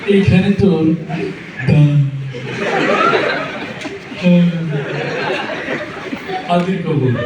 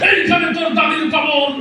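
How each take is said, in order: First: It is recited with a stammer. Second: It is declaimed forcefully like a fiery political speech. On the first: "তোতলা তোতলা... তো তার আবৃত্তির ঢং ছিল এরকম।" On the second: "রাজনীতির মঞ্চে গরম বক্তব্য দিয়ে অভ্যাস নেতার আবৃত্তির ঢং ছিল এরকম।"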